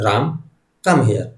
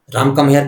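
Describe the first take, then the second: First: There is a short pause after Ram. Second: It is said without a pause after Ram.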